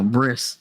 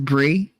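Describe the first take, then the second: First: The word ends with an s sound. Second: The word ends without an s sound. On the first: The speaker calls it right. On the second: The speaker calls it wrong.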